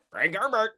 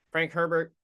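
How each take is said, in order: First: Frank Herbert said higher and grander, Herbert stretched; high mock grand name. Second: Said in the usual way. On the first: Shown as a demonstration. Weighing the author's name, mock-grand Frank Herbert. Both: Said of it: "feels like there should be a third name".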